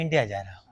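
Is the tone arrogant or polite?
polite. It is said in a calm, polite tone. The speaker calls it right. "हाँ, ऐसे बात कर ना।"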